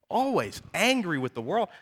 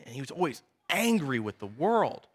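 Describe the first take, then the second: First: Angry lifted and held, the line rising at the end; stress on angry. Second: Said in the usual way. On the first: Shown as a demonstration. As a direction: lean into angry as you repeat it.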